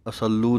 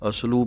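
First: ਅਸੱਲੂ with a long held l; misreading ਅਸੱਲੂ with a doubled consonant; mistaken doubled l. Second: ਅਸਲੂ as as-loo with a single l; careful ਅਸਲੂ, no doubled consonant; correct reading. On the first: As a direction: say ਅਸੱਲੂ as a-sal-loo. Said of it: "ਅਸੱਲੂ ਨਹੀਂ ਕਹਿਣਾ". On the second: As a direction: run s straight into l in ਅਸਲੂ. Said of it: "ਅਸਲੂ ਪਾਠ ਹੈ". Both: Shown as a demonstration.

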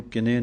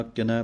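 First: ਕਿਨੇ ending in a plain e vowel; the mistaken ਕਿਨੇ; wrong pronunciation. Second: ਕਿਨੈ ending in the open ai vowel; a clear open ai in ਕਿਨੈ; correct pronunciation. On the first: Teacher showing students the mistake, ਕਿਨੇ with a plain e. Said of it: "ਨਹੀਂ ਕਹਿਣਾ". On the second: Teacher showing students the right way, ਕਿਨੈ with an open ai. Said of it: "ਕਿਨੈ ਪਾਠ ਹੈ". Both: Shown as a demonstration.

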